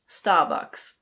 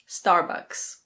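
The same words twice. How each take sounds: First: The R after the first vowel is silent. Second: The R after the first vowel is pronounced. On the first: "In British English, this is pronounced Starbucks" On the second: "In American English, the R is pronounced"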